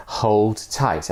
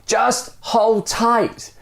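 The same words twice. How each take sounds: First: Said in the usual way. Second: High, slow yell. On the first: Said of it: "Then he added". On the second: Acted. Dangling stranger yelling up to the man, slow high yell. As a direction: call up the order, drawn out. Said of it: "the stranger yells".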